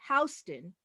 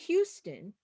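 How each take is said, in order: First: It is pronounced the way New Yorkers say it. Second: It is pronounced the way people in Texas say it. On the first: This is how the New York street and subway stop is named. "In New York, we say Houston" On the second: This is how the Texas city is named. "So in Texas, where there's a city, they say Houston"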